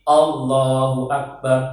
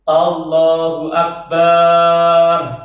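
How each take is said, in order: First: The vowel after the b is kept short. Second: The vowel after the b is drawn out long. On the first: The speaker calls it right. "ba-nya adalah pendek" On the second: The speaker calls it wrong. "tidak boleh memanjangkan huruf ba-nya lafaz akbar. Allahu Akbar tidak boleh"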